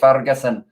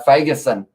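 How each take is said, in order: First: The r is said with a tongue roll. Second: The r is said without a roll. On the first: The speaker calls it wrong. "because I like a bit of a tongue roll" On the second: The speaker calls it right. "I think it's actually uh"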